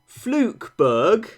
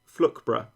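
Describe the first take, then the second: First: The name is said fully, as it is spelled. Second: The name is said in a reduced local way.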